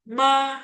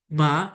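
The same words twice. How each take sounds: First: Ma high and level; first tone. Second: Ma rising; second tone. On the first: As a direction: hold ma on an even high note. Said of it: "Nada pertama". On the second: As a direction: slide ma upward. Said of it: "nadanya naik". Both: Shown as a demonstration.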